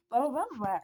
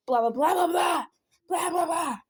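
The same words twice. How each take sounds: First: Said in the usual way. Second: Loud, high mock-angry blahs; exaggerated furious gibberish, pitched up; heated misreading. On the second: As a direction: shout the blahs like an angry message. Granny's misreading versus actual message.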